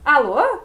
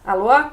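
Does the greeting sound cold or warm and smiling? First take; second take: warm; cold. First: It sounds warm and smiling. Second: It sounds cold and unfriendly.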